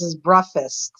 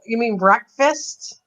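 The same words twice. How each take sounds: First: Imitating the husband saying "breakfast" as "breffast", no k sound; "breakfast" said like "breffast" in a light retold voice; husband's breakfast. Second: "breakfast" said slowly with a clear k, as "break-fast", with a questioning rise; slow, careful "breakfast" with the k sounded, as a gentle correction; correcting breakfast. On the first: Mimicking how her husband says "breakfast" as "breffast". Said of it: "my husband goes". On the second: Retold or imitated. To her husband, correcting him, slow careful "breakfast" with the k. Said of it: "and I'll go".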